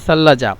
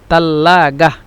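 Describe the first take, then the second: First: It starts with a th sound and has j. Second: It starts with a t sound and has hard g. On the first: "সাল্লাজা তো আরবি শুদ্ধ ভাষা" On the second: "মিশরের আঞ্চলিক ভাষা ওরা বলে তাল্লাগাহ"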